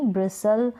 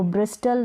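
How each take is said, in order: First: ब्रिसल said with no T sound; silent T. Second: ब्रिस्टल with the T sounded; wrong pronunciation. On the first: Teacher showing the correct ब्रिसल with silent T. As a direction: say ब्रिसल with the T dropped. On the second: Teacher showing the wrong way, ब्रिस्टल with the T. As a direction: say ब्रिस्टल pronouncing the T clearly. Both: Shown as a demonstration. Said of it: "अब इसको ब्रिस्टल नहीं".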